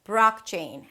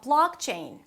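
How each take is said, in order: First: The second sound is like an R. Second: The second sound is a clear L.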